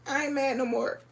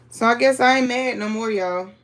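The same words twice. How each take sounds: First: Laughing fake sob, soft; mock crying. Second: Said in the usual way. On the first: Quilter mock-crying to viewers about a missing square. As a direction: pretend to cry through a laugh. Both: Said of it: "I'ma try not to cry".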